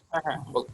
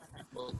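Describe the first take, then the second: First: Said in the usual way. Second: Faint echoing call line; words bouncing back faintly on the call; canyon echo. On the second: Real, not acted. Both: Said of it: "ইকো হচ্ছে এখন আবার".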